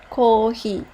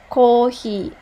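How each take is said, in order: No difference in how they are said.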